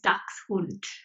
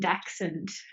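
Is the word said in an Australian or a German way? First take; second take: German; Australian. First: The word is said with a German pronunciation. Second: The word is said with an Australian pronunciation. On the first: "the German pronunciation is" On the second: "I do the the Aussie version"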